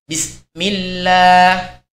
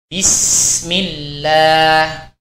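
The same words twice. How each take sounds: First: The s sound is cut short, breath held. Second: The s sound flows with audible breath. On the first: The speaker calls it wrong. "tidak boleh mengucapkannya dengan bismillah. Nah, ini keliru" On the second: The speaker calls it right. "huruf sin di sini harus mengalir"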